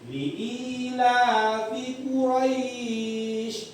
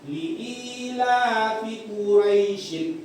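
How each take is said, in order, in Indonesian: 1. Vokal ai dipanjangkan, diakhiri dengan sh. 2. Vokal ai pendek, diakhiri dengan -in. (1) "kalau kamu wakafkan shin ini menjadi sh, maka berlakulah mat di sini" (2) "nggak nggak pakai matnya nak"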